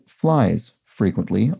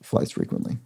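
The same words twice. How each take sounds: First: There is a pause between the words. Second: The words run together without a pause. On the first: It means flies are often annoyances. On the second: It is the ordinary phrase.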